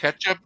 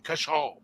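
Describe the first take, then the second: First: Said in the usual way. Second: Ketchup with a French accent, the end stretched into "kechó"; French-sounding "Ketchup", the last syllable soft and stressed. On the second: Shown as a demonstration. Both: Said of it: "you just say it with an accent".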